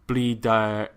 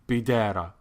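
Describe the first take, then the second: No difference in how they are said.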